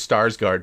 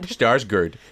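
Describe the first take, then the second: First: The name has an English-style pronunciation. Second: The name has a Swedish-style pronunciation. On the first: "he actually says he prefers Starsgard" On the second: "in Swedish what his name actually is pronounced"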